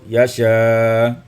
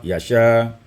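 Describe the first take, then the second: First: The long vowel is held medium length. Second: The long vowel is held short. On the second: "dibaca dengan qasar"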